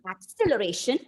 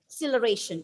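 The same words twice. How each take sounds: First: The stress is on the second syllable. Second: The stress is on the first syllable. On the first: "Moving on to the second syllable" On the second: "if you are stressing on the first syllable"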